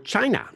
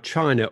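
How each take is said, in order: First: The word is said in a mimicked, distinctive pronunciation. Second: The word is said in a plain, ordinary way.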